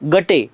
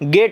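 First: It ends in a vowel sound after the t. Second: It ends on the t with no final vowel. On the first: This is the letter-by-letter reading of the spelling. "गटे असं लिहायला किंवा वाचायला पाहिजे होतं" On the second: This is how English speakers actually say it. "आम्ही याचा उच्चार कसा करतो, गेट असा करतो"

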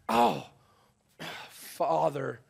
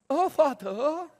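First: It sounds broken and pleading. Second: It sounds haughty and stuck up.

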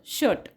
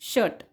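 No difference in how they are said.

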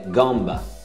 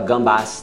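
First: The word ends without an S sound. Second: The word ends with an audible S sound. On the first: The speaker calls it right. "É gamba ou crevette" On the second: The speaker calls it wrong. "Não fala gambas, não"

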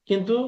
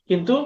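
No difference in how they are said.

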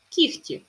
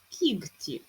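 First: The middle consonant is a voiceless kh sound. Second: The middle consonant is a voiced g sound. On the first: "Чуємо х" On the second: "але пишемо г"

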